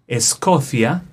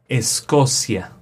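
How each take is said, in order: First: It is said with a Spain Spanish accent. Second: It is said with a Latin American accent. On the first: "In Spain" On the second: "In Latin America, like Mexico"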